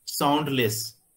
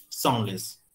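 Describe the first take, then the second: First: साउंडलेस with a clear d before the l; teacher shows the wrong way, साउंडलेस with the d. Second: साउंडलेस said without the d sound; teacher shows the right way, साउंडलेस with no d; d dropped. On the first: साउंडलेस said as saundles. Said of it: "न कि साउंडलेस". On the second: साउंडलेस said as saunles. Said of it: "डी को eliminate करते हैं". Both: Shown as a demonstration.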